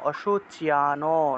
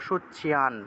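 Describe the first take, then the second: First: The final n is followed by an o vowel. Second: The word ends on a bare n, no vowel. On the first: The speaker calls it wrong. "দন্তন্যটাকে পূর্ণরূপে উচ্চারণ করলে সম্পূর্ণরূপে অশুচিয়ানো" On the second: The speaker calls it right. "আমরা উচ্চারণ করতেছি দন্তন্যকে হসন্ত হিসেবে"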